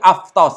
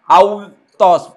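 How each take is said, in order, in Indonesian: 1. Bunyi tengahnya adalah konsonan 'f'. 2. Bunyi tengahnya adalah vokal 'u'. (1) "tapi aftos, ini dibaca F" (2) "Bukan autos, bukan begitu"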